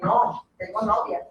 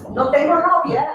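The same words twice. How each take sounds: First: There is a pause after no. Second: It is said without a pause after no.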